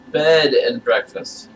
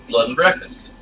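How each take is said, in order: First: "bed and breakfast" said very slowly, each word spelled out clearly; careful correction. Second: "Blood and breakfast" with bed lisped into "Blood"; lisped word. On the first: Shown as a demonstration. [name] slowly spells out "bed and breakfast" to clear up the lisp. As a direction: enunciate "bed" plainly, slow and deliberate. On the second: Acted. [name] repeats "Blood and breakfast" to a puzzled guest, bed lisped into blood. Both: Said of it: "it makes lud sound like lud".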